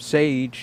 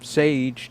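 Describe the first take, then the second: First: The name rhymes with 'gauge'. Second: The name rhymes with 'gauge'.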